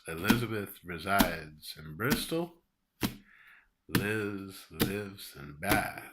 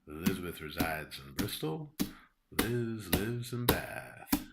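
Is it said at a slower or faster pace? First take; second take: slower; faster. First: It is said at a slower pace. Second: It is said at a faster pace.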